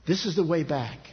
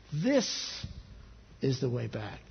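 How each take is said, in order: First: Said in the usual way. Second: "This" pitched up, held alone, then pause; lingering emphasis on "This"; stress on This. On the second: Acted. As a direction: set "This" apart, then drop low for the rest.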